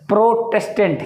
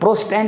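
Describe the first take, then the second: First: The middle syllable is pronounced in the word. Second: The middle syllable is dropped from the word. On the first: The speaker calls it right. "प्रोटेस्टेंट है" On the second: The speaker calls it wrong. "प्रोस्टेंट नहीं, हम गलत बोलते हैं"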